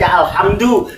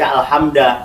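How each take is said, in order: First: The word ends with an u vowel. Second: The word ends with an a vowel. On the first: The speaker calls it right. "wajib dibacanya dengan doma" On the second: The speaker calls it wrong. "tidak mungkin dibaca"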